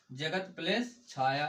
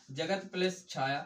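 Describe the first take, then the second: First: Slow, deliberate dictation pace; teacher dictating slowly. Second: Said in the usual way. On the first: Shown as a demonstration. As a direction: lay each word out slowly. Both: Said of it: "क्या?".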